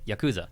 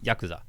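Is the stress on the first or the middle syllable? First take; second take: middle; first. First: The stress is on the middle syllable. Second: The stress is on the first syllable. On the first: The speaker calls it wrong. "we oftentimes accent the middle" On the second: The speaker calls it right. "the first syllable usually being the accented one"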